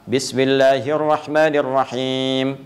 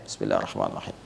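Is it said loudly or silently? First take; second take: loudly; silently. First: It is recited aloud, clearly heard. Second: It is recited very quietly, barely heard.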